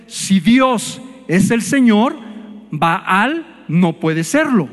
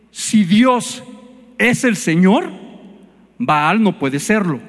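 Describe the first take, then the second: First: Slow, each word weighed, repeated for emphasis; slow emphatic repeat. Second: Said in the usual way. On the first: Shown as a demonstration. Preacher repeating the point to the congregation, slow and deliberate. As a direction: spell it out again slowly so it sinks in. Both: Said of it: "Otra vez".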